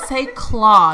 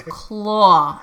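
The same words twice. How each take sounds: First: "claw" with an open ah vowel; wife's claw. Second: "Claw" with a rounded aw; husband's northern claw. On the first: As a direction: firmly model "claw" with open ah. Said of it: "And I said". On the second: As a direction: imitate his "Claw", vowel rounded. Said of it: "And he goes". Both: Retold or imitated.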